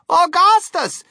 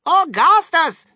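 First: High, loud motherly yell; exasperated mother yelling for her son; mother's cry. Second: Loud, drawn-out fatherly yell; father calling out sharply to his son; father's cry. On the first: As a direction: cry the name out at high pitch. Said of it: "cried Missus Gloop". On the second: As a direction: bellow the name slowly, pitched up. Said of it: "cried Mister Gloop". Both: A narrator's reading.

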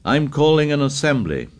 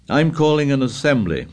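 First: Louder repeated call. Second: Raised voice calling out. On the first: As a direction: call it loudly, insisting. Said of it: "Ralph spoke again, loudly". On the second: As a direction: call it out over the crowd. Ralph calls out to the tribe. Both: Acted.

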